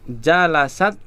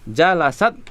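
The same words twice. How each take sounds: The two takes are said the same way.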